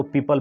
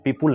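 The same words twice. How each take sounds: First: पीपल said PEE-pul with an unrounded second vowel; correct pronunciation. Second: पीपुल said PEE-pool with a rounded 'u'; wrong pronunciation. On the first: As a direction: say पीपल with a short neutral 'a' before the l. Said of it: "इसका actual pronunciation पीपल होता है". (पीपल में छोटा 'अ', 'पी-पल') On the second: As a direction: put an 'oo' sound in the second syllable of पीपुल. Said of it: "पीपुल नहीं पढ़ेंगे". (पीपुल में 'उ' वाला गलत उच्चारण) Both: Shown as a demonstration.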